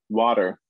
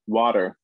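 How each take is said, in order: First: The middle t is a quick tap. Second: The same.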